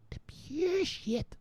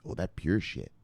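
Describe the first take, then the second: First: Much higher, stretched slow and soft; mock high drawl. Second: Said in the usual way. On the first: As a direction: draw it out high like a blissed-out junkie. Savouring the drug, repeated slowly.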